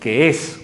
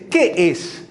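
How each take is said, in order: First: The word 'que' is said without stress. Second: The word 'qué' is said with stress. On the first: It states what something is. "ojo con cómo lo estoy acentuando" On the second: It asks what something is. "la primera es una incógnita"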